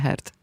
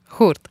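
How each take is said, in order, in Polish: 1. Samogłoska to angielskie 'er'. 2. Samogłoska to zaokrąglone 'u'. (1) "nie Hert"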